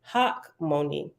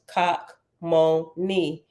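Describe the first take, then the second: First: The name begins with an H sound. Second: The name begins with a hard K sound. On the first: This is the usual English pronunciation. "In English, we typically pronounce it hockmoni" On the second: This is the original Hebrew pronunciation. "is pronounced cockmoni in Hebrew"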